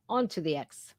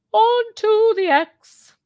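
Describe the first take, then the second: First: Said in the usual way. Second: High, slow, louder mocking squeal on "Onto the X". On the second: Shown as a demonstration. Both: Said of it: "repeated mock".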